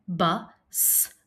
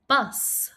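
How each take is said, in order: First: "bus" split into "bu", pause, "sss"; sounded out. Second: Said in the usual way. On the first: Shown as a demonstration. Teacher inviting pupils to help, bus split as bu, s. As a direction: set the final S of "bus" apart. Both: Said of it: "Help me say".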